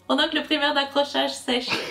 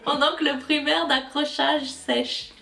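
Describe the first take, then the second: First: The phrase is said at a fast pace. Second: The phrase is said at a normal pace.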